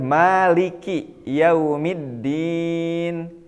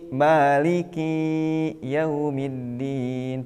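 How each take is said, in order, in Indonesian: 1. Vokal akhir pada Maliki itu pendek. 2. Vokal akhir pada Maliki dipanjangkan.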